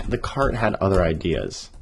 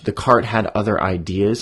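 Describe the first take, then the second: First: Said in the usual way. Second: Lifted, playful storybook phrasing; high language. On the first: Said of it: "I kinda wanna say". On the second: Shown as a demonstration. Author shows the fancier line, lightly lifted. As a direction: tease the personified cart. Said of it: "high language".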